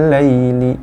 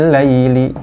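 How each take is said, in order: Both takes have the same delivery.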